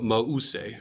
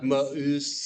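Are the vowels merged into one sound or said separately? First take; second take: separate; merged. First: The vowels are said as two separate syllables. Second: The vowels merge into one gliding sound. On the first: The speaker calls it right. "splitting those those vowels" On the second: The speaker calls it wrong. "not mause as if a as of a of a umlaut"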